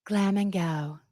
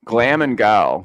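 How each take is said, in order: First: Soft, drawled Lisa Barlow catchphrase; mock Lisa catchphrase. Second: Louder, punchy Lisa Barlow catchphrase; mock Lisa catchphrase. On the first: Podcaster answering her cohost, hushed mock Lisa. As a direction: let it trail off dreamily. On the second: Cohost echoing the catchphrase, mock Lisa voice. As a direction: hit it like the housewife's slogan. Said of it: "Now I need glam".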